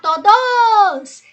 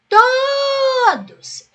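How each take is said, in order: First: The last syllable is stressed and drawn out. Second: The first syllable is stressed and drawn out. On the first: The speaker calls it wrong. "Eu não vou chamar todos" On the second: The speaker calls it right. "Como se eu estivesse gritando a palavra todos. Então, eu vou chamar assim"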